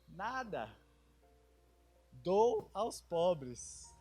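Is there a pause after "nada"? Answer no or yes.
yes. There is a pause after nada.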